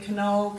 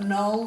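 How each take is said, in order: First: The word begins with a K sound. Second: The word begins with an N sound. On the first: This is how the word was once said. "They would have once pronounced that K" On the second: This is how the word is said today. "silent K"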